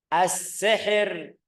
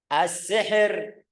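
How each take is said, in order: No difference in how they are said.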